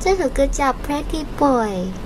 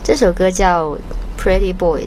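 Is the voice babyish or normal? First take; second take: babyish; normal. First: It is said in a cute, babyish voice. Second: It is said in an ordinary speaking voice. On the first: "用娃娃音说" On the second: "就是比较正常的声音"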